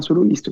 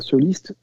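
First: "soloiste" said with an extra "lo" syllable, so-lo-iste; mispronounced word. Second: "soliste" said as so-liste, two syllables; correct pronunciation. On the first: Real, not acted. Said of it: "je dis soloiste et on doit dire soliste". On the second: Shown as a demonstration. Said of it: "on doit dire soliste".

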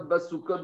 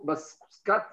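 First: Basukot read as three syllables, ba-su-kot, plural; Basukot, lu au pluriel. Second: Baskat read as two syllables, bas-kat, singular; Baskat, lu au singulier. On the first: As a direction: sound out Basukot with the full u. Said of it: "je la lis Basukot". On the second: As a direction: say Baskat short, no vowel after s. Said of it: "je peux lire Baskat". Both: Shown as a demonstration.

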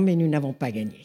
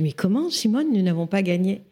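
First: Sober correction, settling down at the end; cool, not unkind. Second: Put-on incredulous young enthusiast. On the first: Retold or imitated. Simone corrects her enthusiastic young friend, coolly and without malice. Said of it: "d'un air très froid, mais pas méchant du tout". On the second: Twenty-four-year-old activist questions Simone's verdict, incredulous. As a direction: protest in disbelief, imitating your eager younger self. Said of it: "pleine d'enthousiasme".

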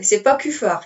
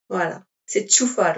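First: "Kufar" avec un k dur, la mauvaise façon; wrong K sound. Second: "Čufar" prononcé « tchoufar », ch au début. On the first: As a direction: dis "Kufar" avec un k, comme la faute à éviter. (prononcez "Kufar" avec un k dur, la version fautive) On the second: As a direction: dis "Čufar" avec un tch initial. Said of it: "comment on prononce ton nom". (prononcez "Čufar" avec un « tch » au début) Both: Shown as a demonstration.

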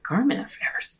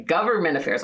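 First: Garment said with GAR like garment, whispered high; misheard as garment. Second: Said in the usual way. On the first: Retold or imitated. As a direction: say Garment as in clothing, breathy. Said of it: "I was like". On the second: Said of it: "Okay, government affairs".

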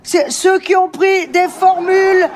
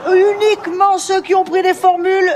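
First: Said in the usual way. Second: Uniquement punched, higher and drawn out; stress on uniquement. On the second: Shown as a demonstration. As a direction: lean hard on uniquement.

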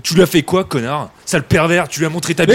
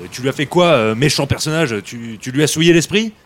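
First: Loud accusing shout; angry insults. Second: Carefully censored, mock-polite question; toned-down politeness. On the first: Acted. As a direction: yell the insults at him. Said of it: "Mais oh, oh, on va se calmer". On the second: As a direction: rephrase it politely on purpose. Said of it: "alors mollo sur les saletés".

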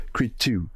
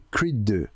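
First: Creed two avec un accent anglais maladroit; two à l'anglaise, accent français marqué. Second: Said in the usual way. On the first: Shown as a demonstration. (mauvais accent anglais sur Creed two) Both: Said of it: "avec mon accent anglais terrible".

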